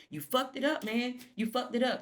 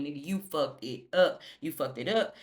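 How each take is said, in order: First: Squeaky high mock of Sally; a whiny high parrot of the scolding. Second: Said in the usual way. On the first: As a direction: pitch it way up to mock him. Voicing Sally, mocking.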